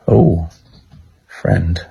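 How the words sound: It is said in a flirty tone.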